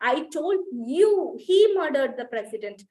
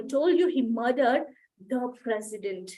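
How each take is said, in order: First: The stress falls on the word you. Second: The stress falls on the word president. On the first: It was you who was told. "when the stress is on you" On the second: The victim was the president, not someone else. "ప్రెసిడెంట్ ని చంపాడు"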